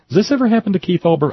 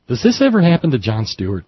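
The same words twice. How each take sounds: First: Exasperated higher, faster. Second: Said in the usual way. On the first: Real, not acted. Host venting to listeners about the messy show, higher and faster. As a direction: pitch jumps way up and rushes, mock-despairing.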